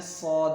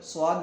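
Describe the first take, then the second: First: صاد as rounded "sawd", no W glide; correct صاد. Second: صاد as Urdu "swaad"; wrong صاد. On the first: Teacher corrects the reading, صاد without the glide. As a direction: say صاد full and heavy, without W. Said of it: "بلکہ پڑھنا ہے". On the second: Teacher shows what to avoid, صاد as "swaad". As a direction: say صاد with a W glide after S. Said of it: "نہیں پڑھنا ہے اسے". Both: Shown as a demonstration.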